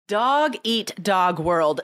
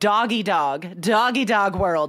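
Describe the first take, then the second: First: The T in eat is clearly pronounced. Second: The T is dropped, sounding like doggy dog. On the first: The speaker calls it right. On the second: The speaker calls it wrong.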